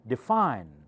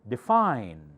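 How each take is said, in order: First: The stress is on the second syllable. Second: The same.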